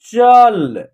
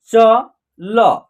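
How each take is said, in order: First: "चल" blended into one loud, held syllable; final ल half-sounded. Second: "चल" split into two separate syllables, cho, lo; letter by letter. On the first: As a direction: join "चल" up, no vowel after ल. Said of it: "last वाला अक्षर का उच्चारण आधा होगा". ("चल" मिलाकर, ल आधा) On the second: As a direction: sound out each letter of "चल" with its full vowel. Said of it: "एक एक अक्षर का उच्चारण करके". ("चल" के अक्षर अलग-अलग, च... ल) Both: Shown as a demonstration.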